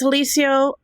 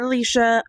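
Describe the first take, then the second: First: The name ends in an 'oh' sound. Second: The name ends in an 'uh' sound. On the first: The speaker calls it right. "it's Alicio" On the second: The speaker calls it wrong. "not Alicia"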